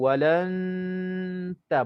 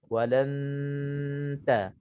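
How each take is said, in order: First: A full nasal hum comes before the t. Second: The nasal hum blends straight into the t. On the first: The speaker calls it wrong. "Jangan kita dengung dulu, walan ta baru nak sebut ta, ah, itu tak namanya ikhfa" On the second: The speaker calls it right. "gigi kita dah dah dah terkena uh, hujung uh, apa tepi lidah depan untuk nak menyebutkan huruf ta"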